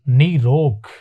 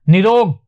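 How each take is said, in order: First: The first vowel is long. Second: The first vowel is short. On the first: The speaker calls it right. "ये शुद्ध है, नी बड़ा ही आएगा" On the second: The speaker calls it wrong. "गलत"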